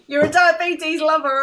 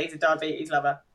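First: High, loud mock shout; loud, gleeful imitation of a yelled insult; imitated shouting. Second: Said in the usual way. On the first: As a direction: shout it after someone in a high-pitched impression. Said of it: "I like when he's shouting".

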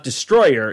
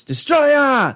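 First: Said in the usual way. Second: "Destroyer" yelled as "Des-troy-AH", soaring at the end; corrected pronunciation. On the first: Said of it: "It's not Destroyer". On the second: Shown as a demonstration. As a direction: shout "Destroyer" ending in a long high "-yah". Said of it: "It's Destroyer".

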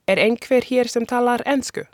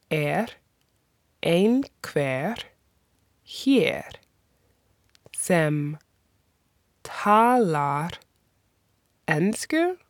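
First: Said in the usual way. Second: Er einhver hér sem talar ensku broken into single words with long pauses. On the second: Shown as a demonstration. Teacher breaking the question apart for learners, slowly. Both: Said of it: "That is".

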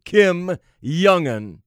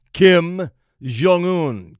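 First: Slow, deliberate Jong-un as "yung-un"; Y pronunciation. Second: Slow, deliberate Jong-un as "zhong-oon". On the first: Host pointedly repeating the name, Jong-un as "yung-un". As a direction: draw out the name, Jong-un starting with Y. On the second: Host pointedly naming the leader, Jong-un as "zhong-oon". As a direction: draw out the name, Jong-un starting with "zh". Gives name in two pronunciations. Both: Shown as a demonstration.

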